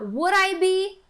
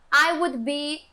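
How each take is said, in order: First: Higher, slow "Would I be?"; question intonation. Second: Said in the usual way. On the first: Shown as a demonstration. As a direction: raise and stretch "Would I be?" as a question. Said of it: "você vai falar". (entonação de pergunta, "Would I be?" agudo e lento) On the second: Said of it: "Ao invés de você falar".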